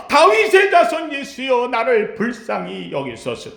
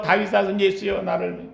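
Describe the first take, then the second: First: The beggar calls out boldly; crying out boldly. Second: Softer, trailing off in shame; a timid half-hearted cry; shy, embarrassed plea. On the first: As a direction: shout it with no shame. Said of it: "소리 지르는 겁니다". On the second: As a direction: mumble it as if ashamed. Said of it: "부끄러워가지고". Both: Shown as a demonstration.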